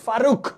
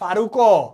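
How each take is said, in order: First: The word ends on a bare consonant. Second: The word ends with an added o vowel. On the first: "একটা হসন্ত হবে" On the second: "আমি যদি বলতাম ফারুকও, তাহলে হসন্ত হইতো না"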